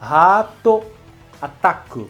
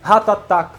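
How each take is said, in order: First: The phrase is said slowly and clearly. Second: The phrase is said quickly.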